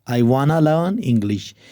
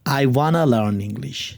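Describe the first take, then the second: First: Want to is blended into one word, wanna. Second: Want to is blended into one word, wanna.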